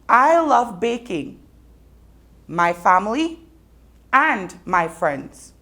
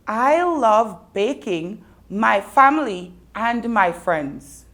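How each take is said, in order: First: There are pauses after baking and after family. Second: It is said straight through without pauses.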